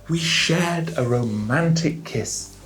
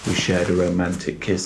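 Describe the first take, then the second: First: It is said with lively, varied intonation. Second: It is said in a flat, robotic tone. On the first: The story feels alive and real. The speaker calls it right. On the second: The story sounds robotic. The speaker calls it wrong.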